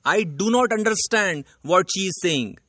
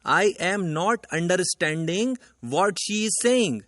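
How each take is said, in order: First: The corrected example read out very slowly; slow corrected sentence. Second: The wrong example sentence read out very slowly. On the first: Teacher slowly reading out the correct sentence to the class. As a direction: lay out each word of the right sentence slowly. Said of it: "सही sentence बनेगा". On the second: Teacher slowly reading out the wrong sentence to the class. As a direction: spell out each word of the wrong sentence slowly. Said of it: "sentence है". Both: Shown as a demonstration.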